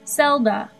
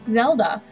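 First: The word begins with a hissing S sound. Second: The word begins with a buzzing Z sound. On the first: The speaker calls it wrong. "I have heard it pronounced with an S" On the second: The speaker calls it right. "Most people pronounce it Zelda"

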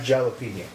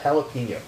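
First: The word is said with anglicized pronunciation. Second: The word is said with Spanish pronunciation. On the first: The speaker calls it wrong. "Not jalapeno" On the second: The speaker calls it right. "you pronounce that jalapeno"

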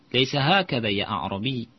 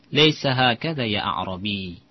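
No difference in how they are said.

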